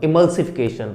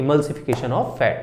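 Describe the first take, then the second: First: Said in the usual way. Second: "emulsification of fat" said slowly, syllable by syllable; slow drilled term. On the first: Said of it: "इस process को हम बोलते हैं". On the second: Shown as a demonstration. Teacher drilling the term for her class, slow and deliberate. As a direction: spell out "emulsification of fat" slowly for students to repeat. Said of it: "क्या बोलते हैं?".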